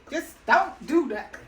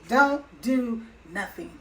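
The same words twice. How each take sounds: First: Stern doctor. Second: Slow, each word weighted: "Don't do nothing."; repeating "Don't do nothing." slowly to stress it; slow emphatic repeat. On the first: Retold or imitated. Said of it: "The doctor was like". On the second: Shown as a demonstration. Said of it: "His exact word".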